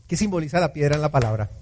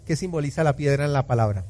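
No difference in how they are said.

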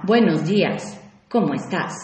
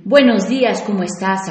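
First: Flat, dropping, softer hello; indifferent good morning; cold greeting. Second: Bright, upbeat hello; cheerful good morning; friendly greeting. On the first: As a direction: greet with no interest. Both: Shown as a demonstration. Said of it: "con un tono y intención diferente".

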